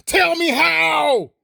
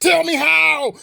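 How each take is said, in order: First: Raised and slowed right down, each word stretched; slow drawn-out demand. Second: Raised, sharp challenge to the viewers; angry demand. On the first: Repeating the challenge to viewers, slow stretched shout. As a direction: drag "Tell me how" out slowly and pointedly. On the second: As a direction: throw the question at them hard. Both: Real, not acted.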